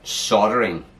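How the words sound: The L sound is left out. This is how Americans say it. "Americans call it soldering. They don't say the L"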